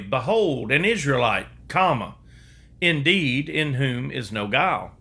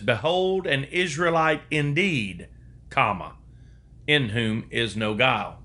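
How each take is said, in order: First: The break falls right before the word 'indeed'. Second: The break falls right after the word 'indeed'. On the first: The man is indeed without guile. The speaker calls it wrong. "I would read it this way" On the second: He is a true Israelite. The speaker calls it right. "In the King James translation, it says"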